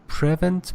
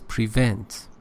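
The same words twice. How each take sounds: First: The stress is on the first syllable. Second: The stress is on the second syllable. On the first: The speaker calls it wrong. "you said uh" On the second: The speaker calls it right. "but it is prevent, second syllable"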